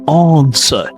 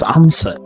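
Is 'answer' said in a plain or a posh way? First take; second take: posh; plain. First: The word is said in a posh accent. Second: The word is said in a plain accent. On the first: "if you want to sound a little bit more posh" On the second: "instead of answer"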